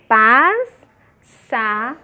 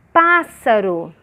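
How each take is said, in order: First: "Pássaro" very slow as "pás", "sa", "ro" with pauses; separação silábica. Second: Said in the usual way. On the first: Shown as a demonstration. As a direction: break "Pássaro" into three syllables, long gaps between. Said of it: "Aí eu separei". ("Pássaro" separado em pás, sa, ro) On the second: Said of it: "olha aqui a outra".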